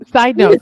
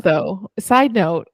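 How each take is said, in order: First: SIDE punched loud; side note, loud. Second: Said in the usual way. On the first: Shown as a demonstration.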